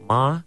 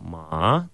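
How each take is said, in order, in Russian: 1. Высота держится высокой и ровной. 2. Высота низко опускается, потом растет. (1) "первым тоном это «мама»" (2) "«ма» третьим тоном, это «лошадь»"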